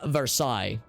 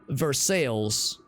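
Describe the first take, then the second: First: Versailles is said the usual French way. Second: Versailles is said the local, altered way. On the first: "so it would be Vers Versailles" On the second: "intentionally mispronounce it as being Versailles"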